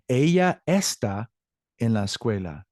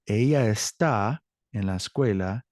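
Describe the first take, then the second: First: The stress in está is on the first syllable. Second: The stress in está is on the second syllable. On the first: The speaker calls it wrong. "Sounds weird, right?" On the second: The speaker calls it right. "let me repeat the correct way"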